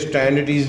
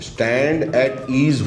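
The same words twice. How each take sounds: First: The words are slurred together into one word. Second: The three words are said clearly and separately. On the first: The speaker calls it wrong. "नहीं होता" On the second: The speaker calls it right. "होता है"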